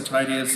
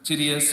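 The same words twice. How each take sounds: First: Titius with a long i, TIE-dee-us; first syllable of Titius like "tie"; alternative pronunciation. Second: Titius with a short first vowel, TID-ee-us; first syllable of Titius like "tid"; alternative pronunciation. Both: Shown as a demonstration. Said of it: "Titius or Titius is correct".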